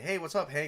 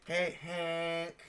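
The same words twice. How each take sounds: First: Said in the usual way. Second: Higher, nasal-free needling hey Hank; annoying voice. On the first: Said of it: "instead of saying". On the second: Shown as a demonstration. Teasing the new character Hank, in an annoying voice. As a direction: drag out the hey to sound irritating. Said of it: "say it in an annoying voice".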